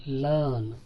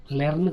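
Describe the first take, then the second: First: లెర్న్ as "luhn", r silent; long central vowel in లెర్న్; r-less pronunciation. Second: లెర్న్ with e and audible r; r sounded. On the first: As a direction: drop the r in లెర్న్. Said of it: "అని అనాలి". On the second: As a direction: say లెర్న్ as "lern". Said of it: "కాదు". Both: Shown as a demonstration.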